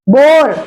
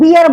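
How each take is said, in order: First: The word sounds like 'bore'. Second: The word sounds like 'beer'. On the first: The speaker calls it right. "वो क्या होता है? बोर" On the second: The speaker calls it wrong. "उसको बियर बोलते हैं, वो बियर नहीं होता"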